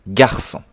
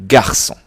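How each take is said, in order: No difference in how they are said.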